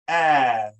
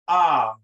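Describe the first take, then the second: First: The vowel sounds like the a in apple. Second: The vowel sounds like the o in opposite. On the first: "A soft A is pronounced ah, as an apple" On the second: "A hard A is pronounced ah, as an opposite"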